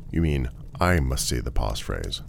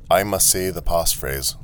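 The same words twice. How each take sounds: First: Correcting, with the weight on "I"; stress on I. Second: Lightly robotic statement of "I must say the passphrase"; automaton. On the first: Traveller correcting the automaton, stressing "I". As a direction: lean on "I" to query who must say it. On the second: Automaton telling the traveller its rule, evenly robotic. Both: Acted.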